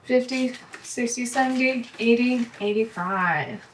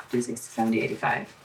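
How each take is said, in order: First: Said in the usual way. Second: Counting the bills again in a soft murmur, trailing into a whisper; just mouth the numbers to yourself while checking the count; under-breath recount. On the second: Real, not acted. Double-checking her cash stuffing, she recounts it to herself in a low murmur.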